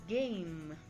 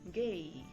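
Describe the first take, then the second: First: The final m sound is clearly pronounced. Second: The final m sound is left out.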